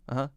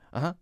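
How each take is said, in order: First: It sounds absent-minded and distracted. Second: The same.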